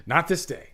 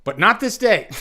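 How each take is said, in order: First: Laughing repeat. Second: High, loud heroic declaration; Aragorn impersonation. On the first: Real, not acted. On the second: Pretend. Streamer finishing the Aragorn line, loud and high. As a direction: proclaim it like a king before battle. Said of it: "my best, um, Aragorn impersonation".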